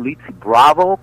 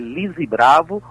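First: The name is said with English pronunciation. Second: The name is said with Brazilian Portuguese pronunciation. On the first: "como pronunciam na Inglaterra" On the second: "O nome dela é Lise Bravo"

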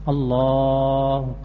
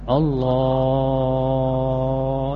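First: The long vowel is held for a short time. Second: The long vowel is stretched out for a long time. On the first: The speaker calls it right. "berarti tidak boleh lebih dari dua harokat" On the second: The speaker calls it wrong. "Kalau dipanjangkan banget, lebih dari dua harokat"

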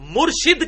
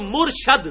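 First: The second syllable has an 'i' vowel. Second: The second syllable has an 'a' vowel. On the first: The one who gives guidance. "مرشد کہتے ہیں رشد و ہدایت دینے والا" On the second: The one who receives guidance. "مرشد زبر کے ساتھ، جس کو ہدایت دی جائے"

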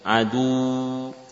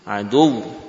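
First: The final sound is drawn out long. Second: The end gets a sharp push and rising pitch. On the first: The speaker calls it wrong. "dengan memanjangkan" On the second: The speaker calls it right. "Hentakan suara, naiknya intonasi"

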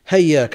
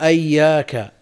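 First: The word starts with an h sound. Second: The word starts with an a vowel. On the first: "بالهاء بدل الهمزة" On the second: "بفتح الهمزة وتشديد الياء"

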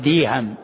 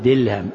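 First: The middle consonant is a y sound. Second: The middle consonant is an l sound. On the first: "وبعضهم يأتي بالياء فيقول ديهم" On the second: "يقول دلهم"

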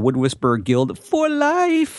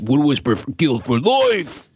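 First: It is read in an ordinary, plain voice. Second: It is said in a gruff, menacing voice. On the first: The speaker calls it wrong. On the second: The speaker calls it right.

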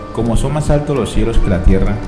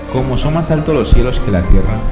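Both takes have the same delivery.

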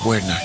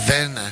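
First: The name begins with a W sound. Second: The name begins with a V sound. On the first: This is how the name is said in the United States. "en Estados Unidos le dicen Werner, porque la W pues la pronuncian We" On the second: This is the name's original pronunciation. "es un apellido de origen alemán"

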